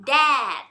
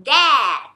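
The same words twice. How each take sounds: First: Said in the usual way. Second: "dad" said louder and firm; clear demo word. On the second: Shown as a demonstration. Teacher models "dad" for parents, louder and firm. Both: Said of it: "แล้วก็พูดว่า".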